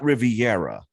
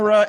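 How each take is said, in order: First: The name is said with four syllables. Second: The name is said with three syllables. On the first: The speaker calls it wrong. "is not Riviera" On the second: The speaker calls it right. "Rivera is not"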